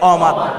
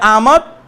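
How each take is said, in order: First: The first vowel is a rounded 'o' sound. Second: The first vowel is an open 'a' sound. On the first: This is the Persian pronunciation. "ফার্সিতে অমাত" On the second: This is the Urdu pronunciation. "উর্দুতে আমত"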